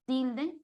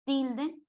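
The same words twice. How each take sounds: The two takes are said the same way.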